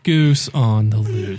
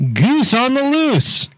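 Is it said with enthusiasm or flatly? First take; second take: flatly; enthusiasm. First: It is said flatly without enthusiasm. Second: It is said loudly with enthusiasm.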